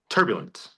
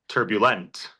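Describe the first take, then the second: First: The stress is on the first syllable. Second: The stress is on the last syllable. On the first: The speaker calls it right. "The first syllable" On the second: The speaker calls it wrong. "Or on the last syllable"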